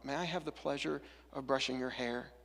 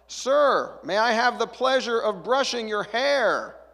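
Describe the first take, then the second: First: It is said quietly and hesitantly. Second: It is said loudly and abruptly.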